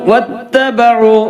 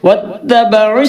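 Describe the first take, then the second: First: The final vowel is drawn out long. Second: The final vowel is kept short. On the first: The reciter stops after the word. "വത്തബഉ നീട്ടിയിട്ടാണ് വഖഫ് ചെയ്യേണ്ടത്" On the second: The reciter carries on to the next word. "വത്തബഉ നീട്ടൂല"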